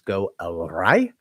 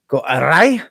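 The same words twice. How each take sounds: First: It is said in the speaker's ordinary accent. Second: It is said in a put-on Scottish accent.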